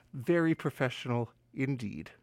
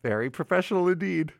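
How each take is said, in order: First: Low, quiet dry self-mockery; deadpan mutter. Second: Fast, brisk throwaway line; quick aside. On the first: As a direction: mutter it dryly at yourself. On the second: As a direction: rattle it off and move on. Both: Real, not acted. Self-mocking repeat after a fumble.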